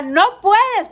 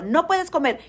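First: Higher and louder, a scolding no; mock loud no. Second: Said in the usual way. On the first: People forbidding her food, mocking a loud high no. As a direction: bark the forbidding NO like a strict doctor. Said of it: "no hay nada más horrible que te diga".

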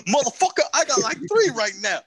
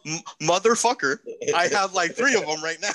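First: Higher, louder mock impression. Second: Imitating a friend. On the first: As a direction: push the voice up in a loud mock. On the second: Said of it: "You said".

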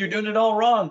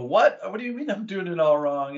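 First: Higher and louder, a flat blunt verdict; blunt master coach. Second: Incredulous retort. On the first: Master coach telling the tennis coach he is doing it all wrong, blunt and loud. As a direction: hand down the correction like a senior coach. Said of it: "and he said". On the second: Tennis coach answering the mentor's criticism, stunned and defensive. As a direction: bristle as if your skill was just insulted. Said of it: "And you go". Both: Retold or imitated.

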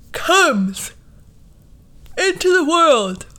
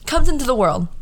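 First: High, slow, drawn-out "comes into the world"; dramatic announcement. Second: Said in the usual way. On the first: Pretend. Mocking a dramatic birth announcement, high and slowly drawn out. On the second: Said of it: "repeated in usual voice".

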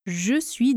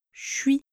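First: Said in the usual way. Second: "je suis" merged into one syllable, "chui"; "je suis" as colloquial "chui"; contracted "je suis". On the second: Shown as a demonstration. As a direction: drop the vowel of "je", so "je suis" sounds like "chui". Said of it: "Je suis devient".

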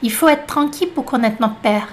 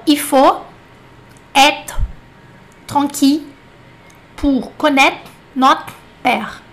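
First: Il faut être tranquille run together fast and clipped; native-speed French with endings dropped. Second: Il faut said as i fo, word by word with pauses; deliberate model sentence; slow careful French. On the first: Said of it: "agora você vai numa velocidade francesa". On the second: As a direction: space out il faut être tranquille slowly. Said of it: "frase aqui proposital ... batalhar essa pronúncia". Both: Shown as a demonstration.

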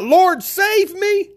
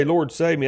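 First: High, drawn-out plea for rescue; crying out. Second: Said in the usual way. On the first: Retold or imitated. Sinking Peter cries out to the Lord, an acted high desperate cry. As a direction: act out a slow, high-pitched cry for help. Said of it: "Peter cried out".

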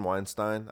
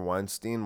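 First: "Weinstein" ending in stine; "Weinstein" rhymes its end with wine. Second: "Weinstein" ending in steen; "Weinstein" rhymes its end with bean. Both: Shown as a demonstration. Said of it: "tells people to pronounce it Weinstein".

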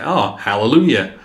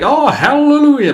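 First: Understated imitation of a barely Southern accent; toned-down hallelujah without the big Southern flourish; not-so-Southern accent. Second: Hammed-up Southern hallelujah, high and loud; expected Southern accent. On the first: Showing a co-host how he really sounds, restrained accent. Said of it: "but he's not. He's like". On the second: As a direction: belt it out like a Southern preacher. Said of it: "you'd expect to be like".

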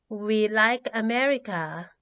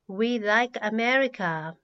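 Both takes have the same delivery.

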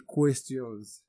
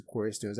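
First: Said in the usual way. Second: "questions" in a Yoruba accent, spoken as "kor-res-tons". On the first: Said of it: "just know I'm referring to questions". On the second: Shown as a demonstration. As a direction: say "questions" the Yoruba way, with an r sound after the k. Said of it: "my Yoruba accent will get the better of me".

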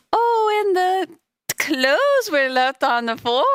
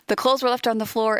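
First: Much higher, drawn-out mock exclamation; excited imitation. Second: Said in the usual way. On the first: Retelling what she said about the clothes, excited high imitation. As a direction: imitate her excitement, high-pitched and stretched out. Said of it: "when she was like". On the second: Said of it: "in my rapture dream too".

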